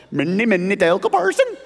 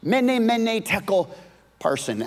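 First: Mock Swedish Chef, jumping way up in pitch on the last word; lightly hammed-up Muppet chef voice; Swedish Chef impression. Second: Said in the usual way. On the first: Preacher lightly hams up the inscription like the Muppet chef. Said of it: "like the chef". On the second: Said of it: "The inscription said this".

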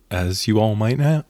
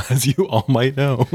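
First: Said in the usual way. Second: Breaking into laughter mid-phrase; giggling through the repeat; laughing. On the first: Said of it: "laughs, repeats the phrase". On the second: Shown as a demonstration. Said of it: "repeated, higher, laughing".

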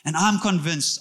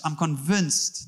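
First: Said in the usual way. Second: Slowed emphasis. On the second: Real, not acted. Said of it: "repeated slower".

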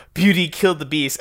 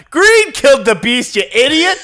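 First: Said in the usual way. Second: Laughing mock yell. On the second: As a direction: shout it like dad in the theater, half laughing. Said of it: "my dad just in the theater yelled out".

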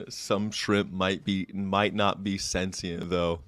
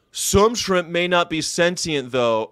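First: Lower, softer, slow; soft, slow aside; quiet repeat. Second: Said in the usual way. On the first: Real, not acted. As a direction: say it again under your breath.

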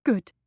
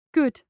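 First: Firm, deliberate repeat. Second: Blurted out. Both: A narrator's reading. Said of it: "she heard herself say".

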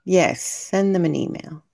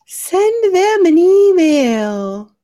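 First: Said in the usual way. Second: High, loud, stretched-out singsong call; playful loud drawn-out cheer; drawn-out urging. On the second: Pretend. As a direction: call it out slowly, pitched well up.

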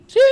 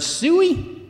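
First: Long, piercing high hog-calling holler. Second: Said in the usual way. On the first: Shown as a demonstration. Preacher tries a hog call for the kids, piercing holler. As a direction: draw SUEY out into a huge high yell. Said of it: "I might try one this morning". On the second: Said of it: "you ever heard the word suey".

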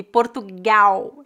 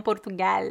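First: Portugal ending in a U sound, poɾtuɡaw; slow Brazilian Portugal; Brazilian final L as U. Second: Portugal without the U sound at the end; the form Brazilians avoid; final L not vocalized. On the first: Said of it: "O L é pronunciado como U". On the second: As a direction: Portugal ending on a light L. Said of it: "não Portugal". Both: Shown as a demonstration.

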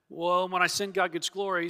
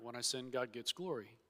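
First: Said in the usual way. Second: 'glory' dropped much softer, a mock muttered repeat; mocking echo. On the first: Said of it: "if they can use that argument". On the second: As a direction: echo the excuse quietly with scorn. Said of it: "everybody could use that argument".

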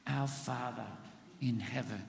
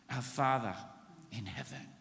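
First: Congregation repeat, hushed; a soft repeat with the church; softly repeated. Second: Hushed, much softer; a quiet reverent address; softly. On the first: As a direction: say it back softly with them. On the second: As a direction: breathe it out reverently. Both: Shown as a demonstration. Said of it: "Say that with me".

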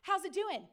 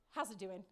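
First: Said in the usual way. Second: Low, soft muttered repeat of How's it doing?. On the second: Retold or imitated. Retelling the manager's greeting, muttered low and soft. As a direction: mumble How's it doing? under your breath, lower and softer. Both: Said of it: "he says".

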